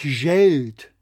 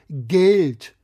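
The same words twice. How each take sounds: First: The word starts with an English soft J sound. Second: The word starts with a German hard G sound. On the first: The speaker calls it wrong. "Und nicht Geld" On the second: The speaker calls it right. "Das wird doch mit G geschrieben ... sagen wir ja auch Geld"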